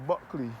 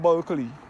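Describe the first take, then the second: First: The name is said with no L sound. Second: The name is said with an L sound. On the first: The speaker calls it right. "it is pronounced as Buckley" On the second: The speaker calls it wrong. "not Bulkley"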